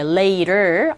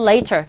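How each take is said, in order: First: The T is soft, sounding close to 'lader'. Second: The T is pronounced crisply, British style. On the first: "아래에 가까운 발음으로" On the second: "영국식 발음은"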